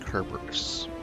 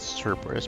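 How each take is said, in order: First: The name is said the way Japanese actors say it. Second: The name is said in the usual English way. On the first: The speaker calls it wrong. "I've heard multiple Japanese actors pronounce it Kerberos" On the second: The speaker calls it right. "I've always pronounced that Cerberus"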